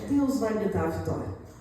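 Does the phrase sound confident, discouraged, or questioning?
discouraged. It is said in a weaker, discouraged tone. The person is starting to lose heart. "a sua tonalidade muda"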